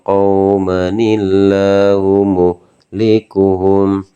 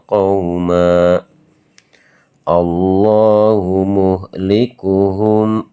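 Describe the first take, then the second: First: It runs on, linking qauma with an added n-i. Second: It stops after qauma, ending on a plain vowel. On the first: The reciter continues without stopping. "kalau teman-teman ingin mewasolkan" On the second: The reciter pauses at this word. "Kalau semisal teman-teman ini mewakafkan di qauma"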